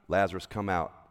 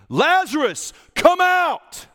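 First: It is said quietly with little energy. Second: It is called out loudly with strong energy. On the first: The call is casual and unemotional. The speaker calls it wrong. "we just kind of" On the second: The call is powerful and commanding. The speaker calls it right. "Jesus called in a loud voice"

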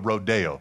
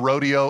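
First: It uses the local town's own pronunciation. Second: It uses the pronunciation common in most places. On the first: This is how locals say it. "but in Salinas, you go to the rodeo" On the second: This is how it is said elsewhere. "it's you go to the rodeo everywhere else"

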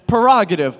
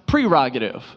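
First: The first syllable has no R sound. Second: The first syllable has an R sound. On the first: The speaker calls it wrong. "I was getting rid of the R that comes up at first" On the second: The speaker calls it right. "it's actually pronounced prerogative"

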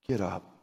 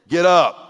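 First: The command is said calmly and gently. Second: The command is said sharply and sternly. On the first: It is a kind, calm instruction. The speaker calls it right. "Let's say it a better way" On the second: It is an impatient order to get moving. The speaker calls it wrong. "That's how I say it to my kids"

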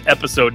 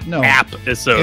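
First: The first syllable sounds like 'ep'. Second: The first syllable sounds like 'app'. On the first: The speaker calls it right. "It is episode" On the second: The speaker calls it wrong. "not app-isode. Because that makes me think of appetizers"

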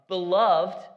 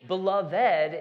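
First: The word is said with two syllables. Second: The word is said with three syllables. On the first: It works as an adjective. "two syllables, is like an adjective" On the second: It sounds like something from an epic tale. "what you would hear, you know, in a fantasy movie"

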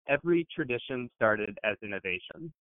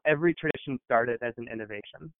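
First: It is said more slowly and deliberately. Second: It is said at a normal conversational pace.

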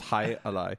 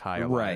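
First: The name is said plainly, with little inflection. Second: The name is said with more lively inflection.

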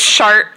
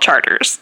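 First: It uses the other, non-local pronunciation. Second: It uses the local New Orleans pronunciation. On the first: The speaker calls it wrong. "is a terrible name" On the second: The speaker calls it right. "New Orleanians are correct to take back the pronunciation and call it Chartres"

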